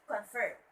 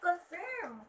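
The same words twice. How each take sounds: First: The stress is on the second syllable. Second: The stress is on the first syllable. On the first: The speaker calls it right. "The stress should be at the um, second syllable or the last syllable" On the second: The speaker calls it wrong. "they would say that, which is wrong"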